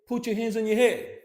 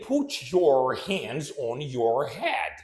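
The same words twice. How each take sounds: First: The words are reduced and run together. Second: Each word is pronounced fully and separately. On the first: The speaker calls it right. "So he said" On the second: The speaker calls it wrong. "did he say"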